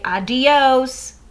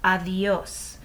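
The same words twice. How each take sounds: First: "adios" with a hard D and stretched ending; exaggerated wrong "adios" with a plain D. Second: "Adios" with a th-like D; quiet corrective "Adios", soft D. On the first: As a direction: say "adios" English-style, D fully stopped. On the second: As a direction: say "Adios" Spanish-style, D softened to th. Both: Shown as a demonstration. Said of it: "we don't pronounce it like that".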